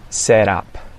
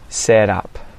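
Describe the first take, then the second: First: The T is a quick flap like D. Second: The T is a quick flap like D.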